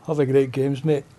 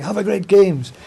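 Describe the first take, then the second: First: Flat, reluctant Have a great games, mate; lightly imitating a Glaswegian who does it but keeps his dignity; grudging Glasgow greeter. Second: Mock-cheery Have a great games, pitched higher; a light imitation of a chirpy volunteer beaming the greeting; jolly English greeter. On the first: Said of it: "still holding on to that bit of dignity". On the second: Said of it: "happy, jolly English people".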